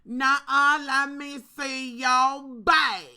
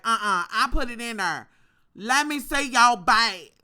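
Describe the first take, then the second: First: Loud, slow, drawn-out demand; mock cashier demanding the bag; sassy cashier. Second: A loud mock of the rude cashier; sassy cashier. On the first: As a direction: insist loudly, stretching every word. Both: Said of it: "She was like".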